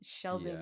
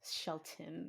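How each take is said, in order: First: The middle consonant is a D sound. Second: The middle consonant is a T sound. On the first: The speaker calls it right. "Sheldon sounds better" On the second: The speaker calls it wrong. "it was spelled with a T"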